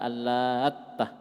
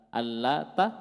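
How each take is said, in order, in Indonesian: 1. Bunyi t ditahan lama dan dobel. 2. Bunyi t pendek dan tunggal. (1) "ada tasydid" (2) "Ada takhfif"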